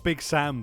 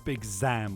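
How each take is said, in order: First: The name begins with an S sound. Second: The name begins with a Z sound. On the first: The speaker calls it wrong. "It's not Big Sam" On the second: The speaker calls it right. "It's Big Zam with a Z"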